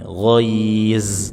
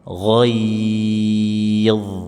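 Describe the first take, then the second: First: It ends in a buzzing z sound. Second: It ends in a heavy, emphatic th-like sound. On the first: The speaker calls it wrong. "Jangan juga dibaca dengan z, lebih salah lagi" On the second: The speaker calls it right. "Akhiri dengan huruf dha tebal"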